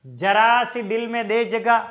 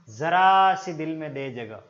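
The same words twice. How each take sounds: First: जरा said with a plain j sound, /dʒəra/; wrong pronunciation. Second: जरा said with a z sound, /zəra/; जरा with the Persian z; correct pronunciation. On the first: Teacher quoting a song line, mispronounced. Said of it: "वो उच्चारण अगर गलत कर रहा है". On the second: Teacher quoting a song line, correctly pronounced. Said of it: "उच्चारण होना चाहिए जरा". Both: Shown as a demonstration.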